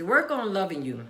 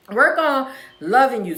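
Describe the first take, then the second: First: Said in the usual way. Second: Louder, punchy rally call of "Work"; louder repeat. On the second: Shown as a demonstration. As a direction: hit "Work" hard for the crowd. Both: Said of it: "Work on it for yourself Wednesday".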